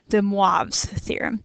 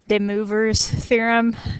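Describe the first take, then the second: First: The name is pronounced with French-style sounds. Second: The name is pronounced with English-style sounds. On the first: The speaker calls it right. "if you're actually trying for accuracy" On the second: The speaker calls it wrong. "a fun way of pronouncing it incorrectly"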